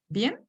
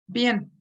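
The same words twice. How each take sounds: First: The voice rises at the end, as a question. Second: The voice falls at the end, as a statement.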